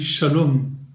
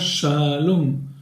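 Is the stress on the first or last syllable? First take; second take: last; first. First: The stress is on the last syllable. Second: The stress is on the first syllable. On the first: The speaker calls it right. "on dit shalom. On accentue à la fin du mot" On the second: The speaker calls it wrong. "n'est pas accentué sur l'avant-dernière syllabe. On ne dit pas shalom"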